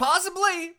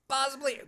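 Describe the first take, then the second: First: High, loud mock German "Possibly."; German accent. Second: Said in the usual way. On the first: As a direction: ham up a villainous German accent. Echoing the Klaus Schwab clip.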